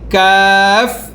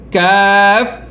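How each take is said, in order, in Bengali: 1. k সাউন্ডটা হালকা আর পাতলা। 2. k সাউন্ডটা হালকা আর পাতলা।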